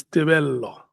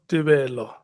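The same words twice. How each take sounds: First: "Tebello" with a long, held double l; correct Tebello. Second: "Tebello" with a single short l; mispronounced Tebello. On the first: Chair correcting the Chief Whip, careful pronunciation. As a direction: say "Tebello" as Te-bel-lo, lingering on the l. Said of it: "it's Tebello". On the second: Chair showing the Chief Whip the wrong name, mispronounced. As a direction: say "Tebello" as Te-be-lo, the l not held. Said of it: "it's not Tebello". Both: Shown as a demonstration.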